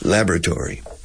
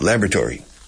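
First: It is said with an American pronunciation. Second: It is said with an American pronunciation.

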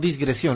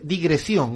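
First: There is an s sound before the g. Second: There is no s sound before the g. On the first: The speaker calls it wrong. "no disgresión" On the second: The speaker calls it right. "Se dice digresión"

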